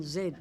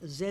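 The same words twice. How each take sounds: First: Z said "zee"; American Z. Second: Z said "zed"; British Z. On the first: Woman spelling her number plate, Z as "zee". Corrects her own letter name. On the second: Woman correcting her number plate spelling, Z as "zed". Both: Real, not acted.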